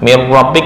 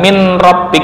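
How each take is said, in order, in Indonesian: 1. n menyatu sepenuhnya dengan r setelahnya. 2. n dibaca jelas sebelum r. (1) "Mir rabbik kan bukan min rabbik" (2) "bukan min rabbik"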